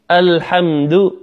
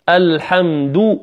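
First: Slow الحمد with a slack, unrounded "du"; unrounded lips. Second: Slow الحمد with full round "du"; rounded lips. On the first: Teacher contrasting for listeners, unrounded "du" in الحمد. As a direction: keep lips back on the end of الحمد. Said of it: "والأخرى لم أخرج الشفتين". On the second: Teacher contrasting for listeners, rounded "du" in الحمد. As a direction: push lips out on the end of الحمد. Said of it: "الحمد بإخراج الشفتين". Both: Shown as a demonstration.

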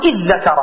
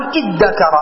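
First: "إذ ذكر" as idhdhakara, one doubled dh; assimilated to dhal. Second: "إذ ذكر" as iddakara, one doubled d; assimilated to dal. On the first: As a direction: merge "إذ ذكر" into a long interdental dh. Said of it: "بقلب الدال ذالا". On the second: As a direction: merge "إذ ذكر" into a long hard d. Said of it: "تقلب الذال دالا وتدغمها". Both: Shown as a demonstration.

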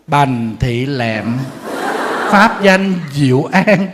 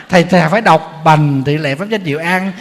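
First: "Bành Thị Lẹm" read very slowly, each syllable drawn out; đọc chậm rãi, rõ từng chữ; slow clear name reading. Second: Said in the usual way. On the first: Shown as a demonstration. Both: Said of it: "phải đọc cho rõ tên".

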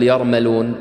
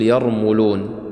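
First: يرملون mispronounced as yar-ma-loon, with an a after the m; faulty يرملون, "mal" in place of "mul"; wrong vowel on meem. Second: يرملون said as yar-mu-loon, with a u after the m; correct-form يرملون, "mul" in the middle; damma on meem. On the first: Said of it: "لا تقول يرملون". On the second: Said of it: "الصحيح تقول يرملون". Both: Shown as a demonstration.

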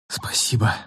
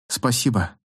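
First: Low, rasping breathless whisper. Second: Said in the usual way. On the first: A narrator's reading. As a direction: rasp it out with no breath left. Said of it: "просипела девушка". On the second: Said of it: "Девушка тяжело взглянула на Джонни".

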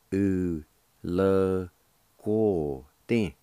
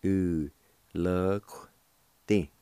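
First: U, le, guo, din in separated syllables, "guo" fully voiced; full pronunciation. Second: U, le, qu-, Ti in separated syllables, "qu-" cut to a bare Q; shortened pronunciation. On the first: Teacher showing learners the first way, syllable by syllable. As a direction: sound out every syllable, keeping the UO in "guo". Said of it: "First way is like this". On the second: Teacher showing learners the second way, UO left out. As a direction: sound out the word, leaving the UO off "qu-". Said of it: "It sounds like this". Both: Shown as a demonstration.

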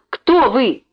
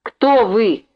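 First: The question again, pushed higher and louder; insist, raising the voice; irritated repeat for someone who did not hear. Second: Put-on cross, sharp question from a grumpy old man; a touch of irritation in the first asking; angry interruption. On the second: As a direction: cut her off crossly. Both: A narrator's reading. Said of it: "сердито перебил её".

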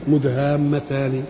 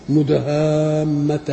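First: "مدهامتان" recited slowly with a final i, "mudhammatani"; connected ending. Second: "مدهامتان" chanted slowly, stopping on a closed final n; pausal ending. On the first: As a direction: sound the vowel after the last n of "مدهامتان". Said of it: "انما هي ايه". ("مدهامتان" بالوصل، بكسر النون الأخيرة) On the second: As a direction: recite "مدهامتان" long and end on a still n, no final vowel. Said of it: "لما تقف تقول كده". ("مدهامتان" بالوقف على نون ساكنة مع المد) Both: Shown as a demonstration.

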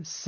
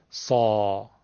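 First: س as a thin front-of-mouth "se"; a light "se" without throat fullness; light plain sin. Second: سا with a full throat vowel, "saw"; front-of-mouth s filled out into a heavy سا; heavy sad. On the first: (سِ نازک از جلوی دهان) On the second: (سا درشت و پرحجم از حلق) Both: Shown as a demonstration.

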